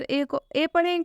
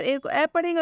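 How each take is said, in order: First: Second ए with a close e vowel; A read as ए. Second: Second ए opened wide to ऐ; A read as open ऐ. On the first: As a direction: say the second ए as a long close 'ay'. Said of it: "कहाँ पर हम ए को आ पढ़ेंगे". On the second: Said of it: "ये confusion दूर हो जाएगा". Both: Shown as a demonstration.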